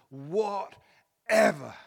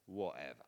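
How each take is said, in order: First: It is said with abandoned, trusting surrender, like Mary. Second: It is said cynically and indifferently, like Pilate.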